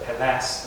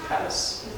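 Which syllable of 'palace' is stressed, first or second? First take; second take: second; first. First: The stress is on the second syllable. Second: The stress is on the first syllable. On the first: The speaker calls it wrong. "instead of uh" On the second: The speaker calls it right. "your emphasis is on most often is on the first is on the first syllable"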